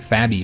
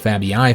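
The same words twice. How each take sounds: First: The double i is one long ee sound. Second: The double i is two separate vowel sounds. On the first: The speaker calls it right. "this is just pronounced as an E sound" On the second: The speaker calls it wrong. "not the Fabii family"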